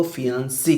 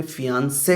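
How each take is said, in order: First: फियांसी with a final long "ee" sound; ending in "सी". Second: फियांसे with a final "ay" sound; ending in "से". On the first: Teacher telling students the word for the bride-to-be, फियांसी ending in "see". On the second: Teacher telling students the word for the groom-to-be, फियांसे ending in "say". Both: Shown as a demonstration. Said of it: "pronunciation में थोड़ा सा फ़र्क है".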